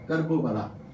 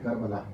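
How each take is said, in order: First: It is said as two words, four syllables. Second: It is said as one word, three syllables. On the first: The two words of the name are kept apart. "कर्ब वाओ बला" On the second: The two words are run together for ease. "हम ज़रा आसानी से कह देते हैं करबला, दोनों लफ्ज़ों को मिलाकर"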